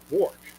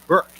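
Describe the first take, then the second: First: The vowel sounds like the 'or' in 'fork'. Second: The vowel sounds like the 'er' in 'her'. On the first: This is the pronunciation others imposed on the name. "I became [name]" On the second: This is the family's original pronunciation. "I kept correcting them"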